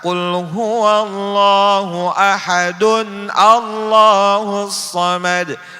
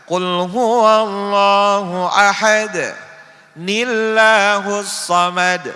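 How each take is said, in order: First: Joined as 'ahadun', then 'Allahus' without linking n. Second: A stop on ahad, then 'nillahus' with n. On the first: "Itu juga salah" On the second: "Jangan kita baca ... Salah"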